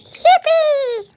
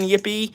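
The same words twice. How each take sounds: First: It is said excitedly, with lively energy. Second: It is said flatly, with little energy. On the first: The speaker calls it right. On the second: The speaker calls it wrong.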